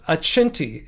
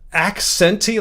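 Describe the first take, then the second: First: It is said with an Italian pronunciation. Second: It is read like the English word accent. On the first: This is how the brand plays on Italian. "the Italian pronunciation" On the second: This is how the spelling looks to an English reader. "it looks like a accenty, like accent"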